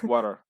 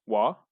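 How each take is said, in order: First: The word is said with both syllables in full. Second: The word is mumbled and clipped to one syllable.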